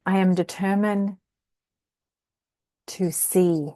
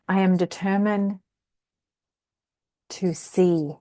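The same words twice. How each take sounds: First: The stress falls on the word determined. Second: The same.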